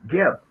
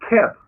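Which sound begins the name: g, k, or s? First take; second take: g; k. First: The name begins with a hard g sound. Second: The name begins with a k sound. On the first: "Gardner calls them with a G" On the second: "The Germans use K. They call him Keb"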